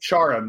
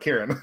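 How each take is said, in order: First: The name does not sound like Karen. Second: The name sounds just like Karen. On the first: The speaker calls it wrong. "Not Charon" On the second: The speaker calls it right. "the pronunciation is Karen"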